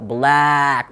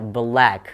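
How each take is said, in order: First: The vowel is stretched and overdone. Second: The vowel is short and relaxed. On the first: The speaker calls it wrong. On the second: The speaker calls it right. "Relax aja"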